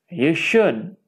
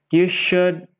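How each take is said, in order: No difference in how they are said.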